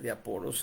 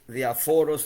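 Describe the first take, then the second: First: The middle consonant is a p sound. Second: The middle consonant is an f sound. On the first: The speaker calls it wrong. "yo dije diaporos, equivocándome" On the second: The speaker calls it right. "La P H se pronuncia como una F"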